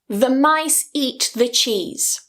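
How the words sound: Only the key words are stressed; 'the' is weakened. The speaker calls it right. "Not every single word is stressed"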